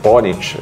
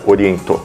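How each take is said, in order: First: The name is said the English way. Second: The name is said the Japanese way. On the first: "é a pronúncia na língua inglesa internacional" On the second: "a pronúncia no Japão é Oriento"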